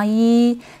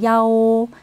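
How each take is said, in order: First: The word is pronounced as yi. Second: The word is pronounced as yao. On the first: It is the ordinary number one when counting. "이는 하나죠" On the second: It is one within room or phone numbers. "방호수, 번호 등을 말할 때 숫자 이는 야오"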